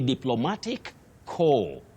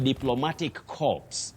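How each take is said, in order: First: The last word ends without p or s sounds. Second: The last word ends with p and s sounds. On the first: The speaker calls it right. "You say diplomatic core" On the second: The speaker calls it wrong. "don't say diplomatic corpse"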